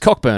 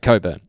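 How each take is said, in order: First: The first part is said as 'cock'. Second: The first part is said as 'co'. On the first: "the surname is Cockburn" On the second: "they try to pronounce it Coburn"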